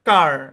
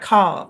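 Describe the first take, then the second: First: American accent, with the final r pronounced. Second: British accent, with no final r sound. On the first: "American ইংলিশে কার" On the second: "British ইংলিশে খা, কোনো আর হবে না"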